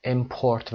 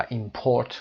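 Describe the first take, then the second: First: Import stressed on the first syllable, IM-port; noun stress. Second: Import stressed on the second syllable, im-PORT; verb stress. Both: Shown as a demonstration. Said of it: "گفتیم کدومشون verb هست".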